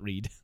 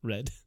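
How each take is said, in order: First: The word rhymes with 'reed', a long vowel. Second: The word rhymes with 'red', a short vowel. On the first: It is the present tense. The speaker calls it wrong. "Not read" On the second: It is the past tense. The speaker calls it right. "There's an A in there"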